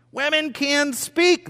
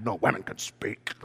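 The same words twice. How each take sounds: First: High, slow proclamation; emphatic declaration. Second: Low, hushed indignant protest; mock mad. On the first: Real, not acted. Preacher tells church women may speak, high emphatic declaration. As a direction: proclaim each word, pitched high. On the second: Woman in the room objects, low mock-mad protest. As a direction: protest under the breath, half playing angry. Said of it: "You should just get mad".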